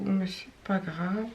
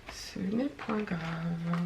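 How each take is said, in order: First: Said in the usual way. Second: Slow, quiet, mock-posh old French; mock formal. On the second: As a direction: drawl it out like an old-fashioned lady.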